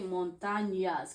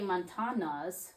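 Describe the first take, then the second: First: The middle consonant is a palatal ny sound. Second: The middle consonant is a plain n sound. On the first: The speaker calls it right. "So you say montañas" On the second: The speaker calls it wrong. "You don't just say montanas. That doesn't sound correct"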